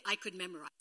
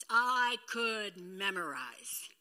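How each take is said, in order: First: Said in the usual way. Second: Slow, drawn-out I could memorize; slow emphatic. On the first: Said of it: "repeated phrase". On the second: Shown as a demonstration. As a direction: stretch I could memorize out slowly. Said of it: "repeated slowly".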